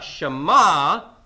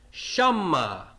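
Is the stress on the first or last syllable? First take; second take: last; first. First: The stress is on the last syllable. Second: The stress is on the first syllable. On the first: The speaker calls it wrong. "Not shama" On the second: The speaker calls it right. "my accent mark siluk right here is stressing the syllable right before it"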